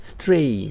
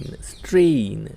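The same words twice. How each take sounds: First: Said in the usual way. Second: strain drawn out slowly as strain; teacher slowly spelling out the sound of strain; slow model word. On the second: Shown as a demonstration. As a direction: stretch strain out for the learner. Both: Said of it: "એને શું કહેવાય છે?".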